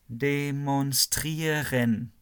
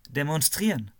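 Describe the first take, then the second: First: The word is said slowly. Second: The word is said quickly.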